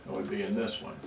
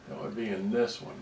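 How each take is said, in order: Both takes have the same delivery.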